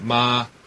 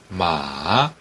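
First: The pitch stays high and level. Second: The pitch dips low then rises. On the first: It means mother. "엄마 할 때 마마 할 때 마 일성" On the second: It means horse. "삼성 같은 경우는 달리는 말"

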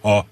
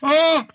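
First: It is voiced with abdominal breathing support. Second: It is voiced in a head voice.

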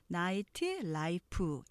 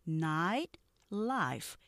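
First: It is said in many syllables with added vowels. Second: It is said in two linked syllables. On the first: The speaker calls it wrong. "우리가 보통 나이트 라이프 이렇게 발음하기 쉽죠" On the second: The speaker calls it right. "이름 절식하면서 연결하는 거예요"

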